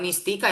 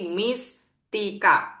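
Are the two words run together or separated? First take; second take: run together; separated. First: The two words are run together as one. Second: The two words are said clearly apart. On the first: The speaker calls it wrong. "bukan Miss Tika ya" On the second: The speaker calls it right. "Pisahin, bacanya dipisah"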